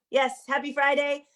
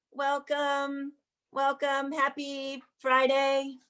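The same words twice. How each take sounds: First: Said in the usual way. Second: Slow, stretched happy Friday; "Happy Friday" pulled long and slow; drawn-out greeting. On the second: Real, not acted. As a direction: draw out "Happy Friday" slowly and fondly. Host greeting audience at opening.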